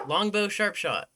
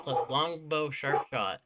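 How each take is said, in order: First: "Longbow sharp shot" repeated higher and louder, with the weight on "sharp"; "Longbow sharp shot" called out with the stress on "sharp"; emphatic. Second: Said in the usual way. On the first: Real, not acted. Repeats item name with emphasis.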